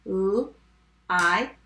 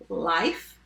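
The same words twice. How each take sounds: First: "L-I-F" as separate sounds, the last one held; sounded out. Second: Said in the usual way. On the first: Shown as a demonstration. Teacher tapping life for spellers, sounded out. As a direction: stretch out each sound of "L-I-F". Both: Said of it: "Let's tap life".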